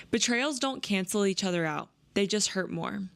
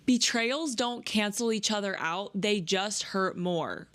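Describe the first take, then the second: First: Said in the usual way. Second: Slow, lingering repeat with weight on "Betrayals"; savoring the line slowly. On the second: Shown as a demonstration. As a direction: let "Betrayals don't cancel each other out" sink in, drawn out. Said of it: "That's my favorite line from the whole book".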